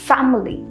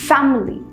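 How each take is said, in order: Both takes have the same delivery.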